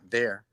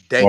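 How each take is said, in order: First: The word begins with a th sound. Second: The word begins with a d sound. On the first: "not there" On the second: "Where I'm from, we say"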